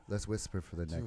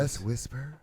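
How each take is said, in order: First: Soft hushed library voice; library whisper. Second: Said in the usual way. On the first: Shown as a demonstration. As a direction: drop to a hush like in a library. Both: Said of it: "let me hear a library voice".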